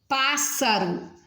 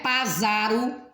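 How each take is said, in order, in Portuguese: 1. O som do meio é um s surdo. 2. O som do meio é um z sonoro.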